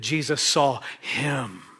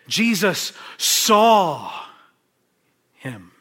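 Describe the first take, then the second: First: The stress falls on the word him. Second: The stress falls on the word saw. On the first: The focus is on the person who was seen. "let me change the emphasis a little bit" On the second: The focus is on the ability to see. "what is the emphasis I'm putting on? Jesus' ability to see"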